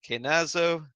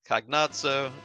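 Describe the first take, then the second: First: The name is said with an anglicized pronunciation. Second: The name is said with an Italian pronunciation. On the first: "the Super Nintendo spellings and the way I mentally pronounce" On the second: "the more classic Italian Dante's Divine Comedy version"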